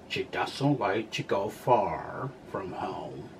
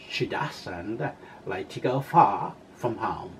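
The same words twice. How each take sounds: First: It is said in an American accent. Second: It is said in a British accent.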